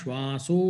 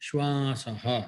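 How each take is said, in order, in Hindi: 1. यह शब्द 'o' ध्वनि से समाप्त होता है। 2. यह शब्द 'ah' ध्वनि से समाप्त होता है। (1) "तत्र ओकारः भवति अतः श्वासो इति भवति" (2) "यदि पदच्छेदः क्रियते तर्हि श्वासः"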